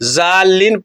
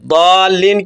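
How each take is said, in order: First: The word begins with a z sound. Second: The word begins with a d sound. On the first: The speaker calls it wrong. "दाल्लीन की जगह ज़ाल्लीन पढ़ते हैं" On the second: The speaker calls it right. "दाल्लीन का सही तलफ़्फ़ुज़ दाद से है"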